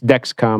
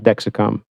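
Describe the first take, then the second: First: The name is said with two syllables. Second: The name is said with three syllables. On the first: The speaker calls it right. "so it's Dexcom" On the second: The speaker calls it wrong. "it's not Dexicom"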